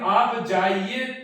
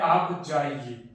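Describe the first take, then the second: First: It is said as a question. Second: It is said as a plain statement. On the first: The listener is told not to go. "Question mark लग गया है" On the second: The listener is told to go. "यहां पर पूर्ण विराम था"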